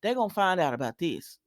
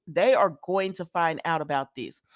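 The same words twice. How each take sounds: First: Said in the usual way. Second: "They are going" said in full, each word stressed; "They are going" spelled out word by word for emphasis; emphatic repeat. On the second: Real, not acted.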